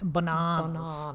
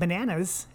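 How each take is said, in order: First: The word is said in a British accent. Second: The word is said in an American accent. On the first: This is how people over there say it. The speaker calls it right. "That's how they say banana over there" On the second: This is not how people over there say it. The speaker calls it wrong. "It's not bananas"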